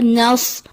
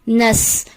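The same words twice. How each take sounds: First: The s sound is emphatic and heavy. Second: The s sound is plain and light. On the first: The speaker calls it right. "दुरुस्त अदायगी है" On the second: The speaker calls it wrong. "स्वाद की जगह सीन की अदायगी कर दी जाती है"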